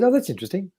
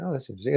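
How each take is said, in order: First: Intrigued physio. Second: Hushed intrigued physio. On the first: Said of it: "and she said". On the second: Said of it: "Oh, she went". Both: Retold or imitated.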